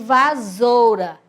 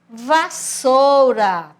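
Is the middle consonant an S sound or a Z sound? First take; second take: Z sound; S sound. First: The middle consonant is a buzzing Z sound. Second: The middle consonant is a hissing S sound. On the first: "ele ia ficar com o som de Z" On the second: "o som de S"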